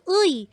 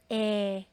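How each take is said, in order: First: The particle is pronounced as the diphthong 'ui'. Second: The particle is pronounced as the plain vowel 'e'. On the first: The speaker calls it wrong. "hindi yan uy" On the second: The speaker calls it right. "it's now pronounced as eh"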